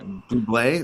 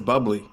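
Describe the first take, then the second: First: The name ends with a 'blay' sound. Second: The name ends with a 'blee' sound.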